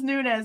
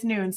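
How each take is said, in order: First: The name ends with a buzzing z sound. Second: The name ends with a hissing s sound. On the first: The speaker calls it wrong. "It looks like it was Nunez" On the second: The speaker calls it right. "but apparently it's Nunes"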